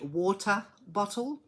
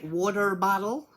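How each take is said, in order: First: The middle consonants are crisp T sounds. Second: The middle consonants sound like soft D sounds. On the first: This is how the speaker's own community says it. The speaker calls it right. "We say water bottle because they're T's" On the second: This is how Americans say it. The speaker calls it wrong. "Americans, they say water bottle. They pronounce it with D's"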